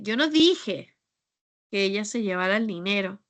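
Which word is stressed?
dije. The word 'dije' carries the main stress. The speaker said or did something else. "Es que tal vez pues dije otra cosa o hice otra cosa"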